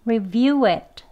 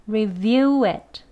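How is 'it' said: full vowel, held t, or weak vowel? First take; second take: full vowel; full vowel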